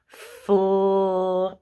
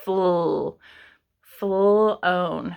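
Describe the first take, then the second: First: "Flown" stretched slowly; sounding out. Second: "Fl-" isolated then "flown" blended; sounding out. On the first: Teacher stretching flown to find the blend. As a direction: draw out "Flown" to hear the l. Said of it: "They might not hear that l sound". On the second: Teacher showing the fl blend to students. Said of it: "an L for l". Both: Shown as a demonstration.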